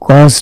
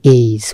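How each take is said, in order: First: The vowel sounds like 'aw' in saw. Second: The vowel sounds like 'ay' in day. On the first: The speaker calls it wrong. "এটা কিন্তু গজ না" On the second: The speaker calls it right. "উচ্চারণটা গেজ"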